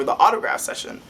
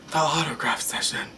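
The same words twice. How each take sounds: First: Said in the usual way. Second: Hushed, breathy whisper of awe; awed, voiceless repeat; dramatic whisper. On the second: Real, not acted. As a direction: whisper it like a big reveal.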